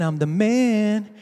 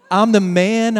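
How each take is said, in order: First: I'm the man stretched slow and smug; slow drawn-out boast. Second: Mock proud shout of I'm the man; loud boast. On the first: Retold or imitated. Preacher's king savouring his boast, slow and smug. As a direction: savour each word. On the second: Preacher's king bragging from the roof, loud mock boast. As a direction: crow it out. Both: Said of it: "he's singing that".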